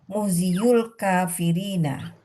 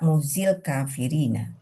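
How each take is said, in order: First: The 'yu' syllable is pronounced after 'muhzi'. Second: The 'yu' syllable is dropped after 'muhzi'.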